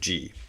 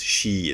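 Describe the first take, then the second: First: The syllable starts with a voiced 'j' sound. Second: The syllable starts with a voiceless 'sh' sound. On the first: The character is inside a compound word. "instead of ji" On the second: The character stands on its own. "if you took it away from the compound, would be pronounced shi"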